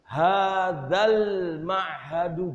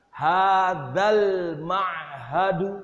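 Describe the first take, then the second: No difference in how they are said.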